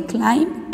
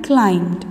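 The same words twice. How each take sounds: First: Climb, the base form, said clean and short; present tense climb. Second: Climbed with a clear final d, dropped low and falling; past tense ending. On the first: Teacher contrasts climb with climbed for students. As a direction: climb said plainly with no ending, level tune. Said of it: "past tense of climb". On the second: Teacher models the past tense climbed for students. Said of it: "Climbed is the past tense". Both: Shown as a demonstration.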